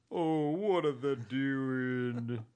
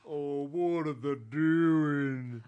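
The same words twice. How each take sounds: First: Slow drawn-out Southern gentleman. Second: Slower, louder Southern gentleman; Southern gentleman voice again. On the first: Retold or imitated. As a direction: stretch it out like a genteel Southern man. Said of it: "read it in a Southern voice". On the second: Shown as a demonstration. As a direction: drag it out, Southern gentleman style. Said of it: "That's pretty good".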